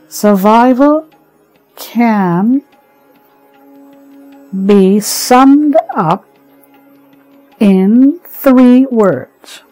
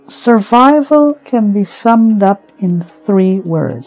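First: It is read slowly. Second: It is read at a normal pace.

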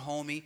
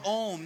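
First: The word ends with an added ee vowel. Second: The word ends on the m sound. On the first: The speaker calls it wrong. "not Dior homie" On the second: The speaker calls it right. "that's poor Dior home. Ohm"

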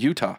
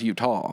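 First: The word is short and crisp, front of mouth. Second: The word is drawn out, from the back of the throat. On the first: The speaker calls it right. "You just say it right off the tip of your tongue" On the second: The speaker calls it wrong. "in the back of my throat is drawn out as Utah"

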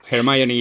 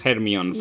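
First: The name is pronounced the English way. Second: The name is pronounced the Spanish way.

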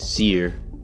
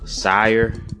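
First: The word rhymes with 'fear'. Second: The word rhymes with 'fire'. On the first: The speaker calls it wrong. "I pronounced it Sear" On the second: The speaker calls it right. "I think it's Sire"

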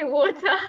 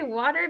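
First: It is said in a non-North American accent. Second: It is said in a North American accent.

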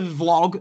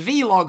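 First: The word is said as one syllable. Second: The letter V is said separately before log. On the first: "not the vlog" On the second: "the V-log"

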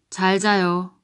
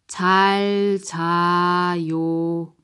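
First: It is said fast. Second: It is said slowly.

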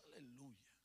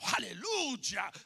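First: It is said in a tired, worn-out way. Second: It is said with fresh, lively excitement.

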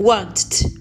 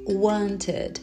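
First: It ends in a bare T with no added vowel. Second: A short vowel is added before a final D. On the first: The speaker calls it wrong. "Esquisito, né?" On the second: The speaker calls it right. "esse somzinho de vogal no meio"

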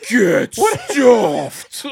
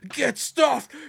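First: It is shouted with the most fury. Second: It is shouted with the least fury. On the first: "repeated several times with increasing fury" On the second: "repeated several times with increasing fury"

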